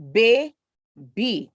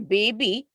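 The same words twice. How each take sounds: First: Put-on "baby" as bay, gap, bee; split into syllables. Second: Said in the usual way. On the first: Shown as a demonstration. Teacher showing two-syllable words, "baby" split in two. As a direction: draw "baby" out in two separated beats. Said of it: "Two syllables". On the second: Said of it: "Now, for example".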